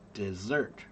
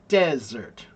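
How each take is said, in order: First: The pitch rises on the second syllable. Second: The pitch falls on both syllables. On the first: "四声二声 ... It goes up" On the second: "这是四声四声 desert, desert ... down, down"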